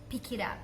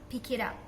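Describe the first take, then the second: The two takes are said the same way.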